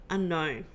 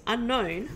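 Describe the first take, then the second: First: Short, falling, lightly voiced computer reply; computer answering. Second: Higher, rising disbelief; surprised question. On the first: Computer answers the captain with a level, falling word. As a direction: state it like a calm machine. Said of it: "Computer replies". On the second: Roby echoes the computer in surprised disbelief. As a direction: toss it back, startled. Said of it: "Roby says". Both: A narrator's reading.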